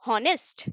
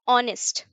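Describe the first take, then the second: First: The word begins with an H sound. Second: The word begins directly with a vowel. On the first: The speaker calls it wrong. "हॉनेस्ट या ऑनेस्ट?" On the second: The speaker calls it right. "ऑनेस्ट करते हैं।"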